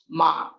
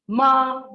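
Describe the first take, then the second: First: The pitch is low and grave. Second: The pitch stays high and level. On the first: It means horse. "ma with grave pitch" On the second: It means dog. "ma is high level pitch becomes dog"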